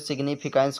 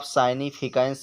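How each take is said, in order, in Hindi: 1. पहला अक्षर 'sig' जैसा सुनाई देता है। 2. पहला अक्षर 'sigh' जैसा सुनाई देता है। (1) "ज़्यादातर से ज़्यादा लोग सिग्निफिकेंस ही पढ़ते हैं" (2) "आप साइनिफिकेंस भी पढ़ सकते हो"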